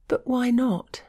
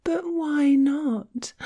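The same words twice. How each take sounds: First: High, breathless gasp of protest. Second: High, slow, mocking whine; mock whining. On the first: A narrator's reading. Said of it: "she gasped". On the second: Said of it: "I imitated her whiny voice".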